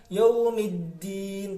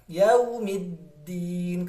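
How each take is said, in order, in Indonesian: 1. Bunyi d-nya pendek, tidak ditahan. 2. Bunyi d-nya ditahan sebentar. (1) "jangan langsung" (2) "ditahan sebentar"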